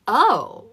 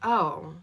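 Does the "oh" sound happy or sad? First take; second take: happy; sad. First: It sounds happy and pleased. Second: It sounds sad and disappointed.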